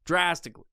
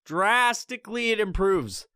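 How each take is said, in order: First: Said in the usual way. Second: "Drastically" drawn out slow and higher; stress on drastically. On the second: Shown as a demonstration. Repeating the point on social media, "Drastically" slowed and stressed. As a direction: stretch "Drastically" for emphasis.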